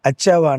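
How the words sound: The word begins with a bare vowel. This is how people in the Medak region say it. "అచ్చావా అంటారు"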